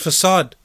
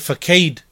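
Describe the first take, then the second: First: The c is pronounced like an s. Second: The c is pronounced like a k. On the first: The speaker calls it right. "but the word is facade" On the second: The speaker calls it wrong. "He may say facade, reading the word"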